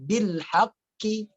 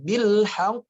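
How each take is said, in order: First: The word ends with an added i vowel. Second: The final q is held, then released with a bounce. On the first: The speaker calls it wrong. "jangan dibaca bil haqqi, tidak" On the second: The speaker calls it right. "Tapi ditahankan dulu"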